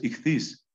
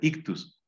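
First: The word is said as 'ikhthys' with breathy consonants. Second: The word is said as plain 'iktus'. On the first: This is how the word should be said. The speaker calls it right. "lo correcto es ichthys" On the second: This is the popular way people say it. The speaker calls it wrong. "se suele pronunciar ictus"

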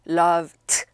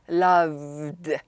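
First: The ending is a voiceless t sound. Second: The ending is a voiced d sound. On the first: The speaker calls it wrong. "loved 하는 것보다" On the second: The speaker calls it right. "D가 유성음이거든요"

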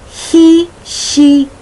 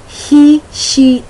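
The two takes are said the same way.

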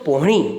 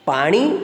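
First: The first vowel is a rounded 'o' sound. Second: The first vowel is an open 'aa' sound. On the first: This is how North Gujarat speakers say it. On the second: This is the standard form of the word.

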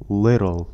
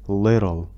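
No difference in how they are said.

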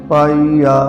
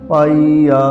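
No difference in how they are said.

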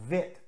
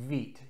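First: It starts with v and has a short i vowel. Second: It starts with w and has a long ee vowel. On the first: The speaker calls it wrong. "or even as vit, assuming it's German" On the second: The speaker calls it right. "the word is pronounced wheat"

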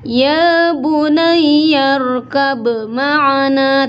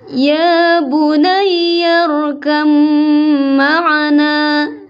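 First: A bouncing b is heard before the m. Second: The b merges into a long nasal m. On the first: The speaker calls it wrong. "tidak boleh ada qalqalahnya ya ... tidak boleh" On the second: The speaker calls it right. "langsung ke mim dan disertai gunnah"

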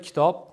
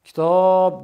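First: The last vowel has normal length. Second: The last vowel is drawn out long.

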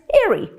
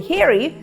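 First: The initial h sound is dropped. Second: The initial h sound is pronounced. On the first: "і навіть airy" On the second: "і навіть у слові Harry"

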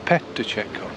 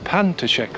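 First: The first syllable is said as 'pe'. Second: The first syllable is said as 'pan'. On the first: The speaker calls it right. "It's PETACCIATO" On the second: The speaker calls it wrong. "I think I keep saying it with PANTACCIATO"

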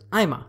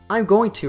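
First: The phrase is reduced to 'I'ma'. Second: Every word is fully pronounced, with no reduction. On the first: "the third level connected speech reduction here is I'ma" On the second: "I'm going to reduces to I'm gonna"

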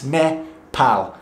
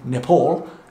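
First: It is said the local, non-English way. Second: It is said with an English accent. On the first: The speaker calls it right. "you're saying it wrong, it's Nepal" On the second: The speaker calls it wrong. "as I was saying previously in my English accent"

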